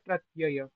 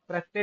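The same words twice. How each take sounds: First: The final 'ya' sound is clearly pronounced. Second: The final 'ya' sound is blurred or dropped. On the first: The speaker calls it right. "इसका उच्चारण होता है प्रत्यय" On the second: The speaker calls it wrong. "प्रत्यय नहीं होता"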